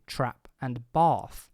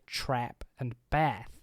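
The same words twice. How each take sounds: First: Speaker's accent; the two words have different vowels. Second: A US accent; both words share one vowel.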